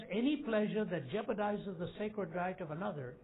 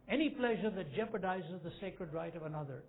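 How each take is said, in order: Both takes have the same delivery.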